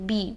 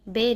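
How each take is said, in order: First: The vowel is an 'ee' sound. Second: The vowel is an 'eh' sound. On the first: The speaker calls it right. "बी करेंगे" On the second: The speaker calls it wrong. "बे नहीं करेंगे"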